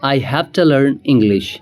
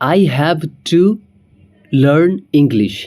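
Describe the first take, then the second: First: 'Have to' is reduced to 'hafta'. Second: 'Have to' is said in full.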